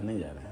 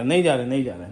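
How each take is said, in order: First: "नहीं जा रहे" dropped much lower and softer, almost a whisper; soft fading. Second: Said in the usual way. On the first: Real, not acted. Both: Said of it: "good night करो।".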